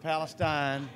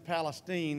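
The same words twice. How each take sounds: First: The name is said the Middle East way. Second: The name is said the local hometown way. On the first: It names the place farther to the east. "not Palestine" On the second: It names the speaker's hometown. "my hometown is Palestine"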